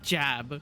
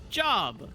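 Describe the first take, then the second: First: The vowel sounds like the one in cat. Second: The vowel sounds like the one in hot. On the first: The speaker calls it wrong. "Not jab" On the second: The speaker calls it right.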